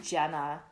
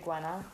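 First: The name starts with a 'j' sound. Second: The name starts with a 'gw' sound. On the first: This is how the speaker usually says it. "I say Jenna" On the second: This is how the audiobooks say it. "am I supposed to say Gwenna?"

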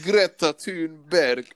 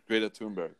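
First: The name has an exaggerated Swedish accent. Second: The name is said in a plain way.

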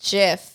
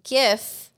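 First: It begins with a soft J sound. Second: It begins with a hard G sound. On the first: "isn't that with a J?" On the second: "I would say GIF because like gift"

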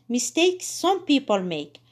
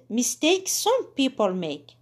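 No difference in how they are said.

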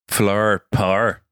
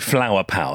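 First: Northern Irish accent, power becomes one syllable. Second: Standard English accent, power has two syllables. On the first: "that needs to become flower, par" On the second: "so RP, received pronunciation"

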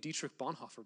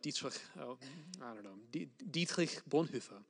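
First: The name is pronounced with English sounds. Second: The name is pronounced with German sounds.

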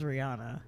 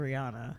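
First: The name is said the common, popular way. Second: The name is said the common, popular way.

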